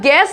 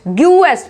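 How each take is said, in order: First: The g goes straight into the vowel. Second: A 'yu' glide follows the g. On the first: The speaker calls it right. "इसको बोला जाएगा गेस्ट" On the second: The speaker calls it wrong. "ना कि ग्यूएस्ट"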